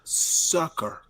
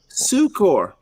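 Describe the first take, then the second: First: The word sounds exactly like 'sucker'. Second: The second syllable sounds like 'core'. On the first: "so he takes Google as the only pronunciation" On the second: "That's how the nuns um, taught me to pronounce it to to separate it from sucker"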